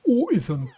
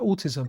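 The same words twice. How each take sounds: First: The middle T is dropped, London style. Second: The middle T is clearly pronounced.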